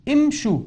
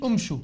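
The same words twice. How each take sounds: First: امشوا said imshu, opening i, pitched up; right take: امشوا with i; correct hamza with i. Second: امشوا said umshu, opening u; wrong take: امشوا starting with u; wrong hamza with u. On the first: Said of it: "خطأ امشوا". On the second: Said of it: "ما قلت امشوا". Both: Shown as a demonstration.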